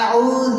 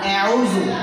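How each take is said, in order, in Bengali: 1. শুরুর স্বরধ্বনিটি খোলা ও সহজভাবে উচ্চারিত হয়েছে। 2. শুরুর স্বরধ্বনিটি কৃত্রিম ঢঙে সামনের দিকে টানা হয়েছে। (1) "মুখ ছেড়ে পড়বেন" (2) "এই অ্যাউজু হবে না, অত স্টাইলিশ করা লাগবে না"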